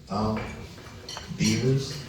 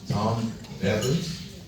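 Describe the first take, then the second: First: The surname starts with a long ee vowel. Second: The surname starts with a short e vowel.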